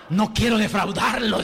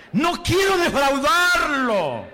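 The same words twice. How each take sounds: First: Said in the usual way. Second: Higher, louder and slow No quiero defraudarlo, dwelling on quiero; fervent plea. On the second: Shown as a demonstration. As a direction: model the vow for the congregation to repeat.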